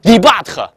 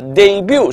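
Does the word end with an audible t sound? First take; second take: yes; no. First: The word ends in but, with a t. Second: The word ends without a t sound. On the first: The speaker calls it wrong. "但很多人的话把这个词儿会念成debut 啊" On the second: The speaker calls it right. "debut 是它的念法"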